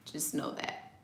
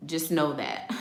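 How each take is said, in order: First: Laughing whisper. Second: Said in the usual way. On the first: Shown as a demonstration. Warning viewers about a Cancer's revenge, whispered with a laugh. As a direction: whisper it again, softer, through a chuckle.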